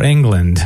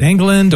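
First: Said in the usual way. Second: England with an extra middle syllable; three-syllable surname. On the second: Shown as a demonstration. Host checking guest's surname, three-syllable version. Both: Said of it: "three syllables or two".

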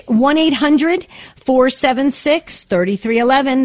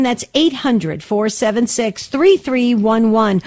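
First: Said in the usual way. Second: "three three one one" spelled out digit by digit, slowly. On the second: Shown as a demonstration. Host repeats the number so callers catch it, slow.

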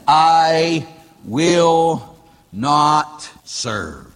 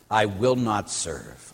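First: Each word of the refusal stretched far out; drawn-out defiance. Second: Low, soft and slow refusal; hushed defiance. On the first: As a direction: declaim it very slowly, word by word. Quoting Satan's defiant refusal, word by word. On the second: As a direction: drop the voice and say it slowly. Same refusal repeated in a lowered voice. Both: Acted.

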